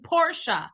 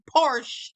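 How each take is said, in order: First: The final vowel is pronounced, two syllables. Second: The final vowel is silent, one syllable. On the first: The speaker calls it right. "vowels on the end of a word, specifically the E, is pronounced that way" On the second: The speaker calls it wrong. "It isn't Porsche"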